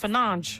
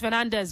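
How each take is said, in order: First: The name is said the Portuguese way. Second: The name is said the non-Portuguese way. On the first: This is how the player says his own name. The speaker calls it right. "Portuguese uh, pronunciation" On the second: This is how many people say it. The speaker calls it wrong. "Some people will say it's Fernandez"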